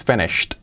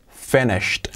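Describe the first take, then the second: First: "finished" ending in a clear t. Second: "finished" as fenisht with a crisp final t; "finished" ending in a clear t. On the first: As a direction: end "finished" on a sharp t. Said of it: "Y acabado en esa T". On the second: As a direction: clip "finished" to one syllable with a t. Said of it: "Fijaos cómo digo finished". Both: Shown as a demonstration.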